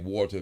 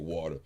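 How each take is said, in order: First: It is said carefully with strong emphasis. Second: It is said in a broad country accent. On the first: The speaker sounds educated. The speaker calls it right. "emphasize on it so it seemed like I'm smart" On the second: The speaker sounds uneducated. The speaker calls it wrong. "That is some country ass way of saying water"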